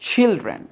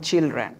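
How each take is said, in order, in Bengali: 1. প্রথম ধ্বনিতে জোরালো হাওয়ার ঝলক আছে। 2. প্রথম ধ্বনিতে কোনো হাওয়ার ঝলক নেই। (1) "কি উচ্চারণ করতে হবে চিলড্রেন" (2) "আমরা বলি চিলড্রেন"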